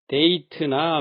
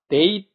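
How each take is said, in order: First: It ends with a full extra 'teu' syllable. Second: It ends clipped, with no extra syllable. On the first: The speaker calls it wrong. "쓰던 것을" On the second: The speaker calls it right. "트 소리는 빼고"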